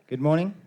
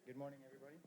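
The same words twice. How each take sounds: First: Loud energetic greeting. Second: Mumbled greeting, barely heard; quiet. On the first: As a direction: boom out good morning. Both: Shown as a demonstration. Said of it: "Let's try that again".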